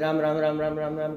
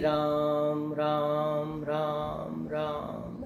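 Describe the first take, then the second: First: The name is repeated quickly. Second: The name is repeated slowly.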